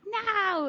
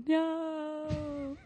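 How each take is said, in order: First: Put-on high drawn-out Boston accent no. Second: High, sharp shocked no; horrified no. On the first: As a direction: say no like a Boston mom. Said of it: "I say it in my mom's Boston accent". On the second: Retold or imitated. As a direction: recoil at the mirror. Looking in mirror, shocked.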